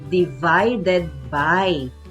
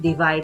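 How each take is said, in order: First: Every syllable of the phrase is said fully. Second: The ending of the phrase is left off. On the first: The speaker calls it right. "ang tamang pagbigkas ay divided by" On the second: The speaker calls it wrong. "Nawala naman yung dulo"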